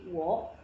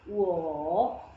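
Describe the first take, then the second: First: The word is said with a rising tone. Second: The word is said with a low dipping tone. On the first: The tone changes before another third tone. "ini berubah jadi wo" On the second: This is the word's basic tone on its own. "harusnya kan wo"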